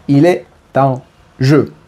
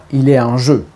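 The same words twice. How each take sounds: First: "il est en jeu" said slowly, word by word; articulation détachée. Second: Said in the usual way. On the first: Shown as a demonstration. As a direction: separate each word of "il est en jeu" to make it clear. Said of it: "j'espère qu'il est compréhensible". (« il est en jeu » articulé lentement, mot par mot) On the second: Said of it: "mon accent italien, j'espère qu'il est compréhensible".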